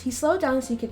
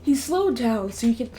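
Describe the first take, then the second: First: It is read in a natural speaking voice. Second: It is read in a put-on character voice.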